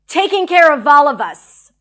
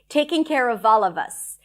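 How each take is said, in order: First: It is said with strong, angry emotion. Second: It is said calmly, with smoothly connected words. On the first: "with anger or whatever strong emotion that comes up" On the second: "let's get comfortable with the pronunciation"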